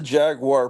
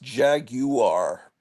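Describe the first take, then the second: First: It is said with two syllables. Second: It is said with three syllables. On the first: The speaker calls it right. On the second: The speaker calls it wrong.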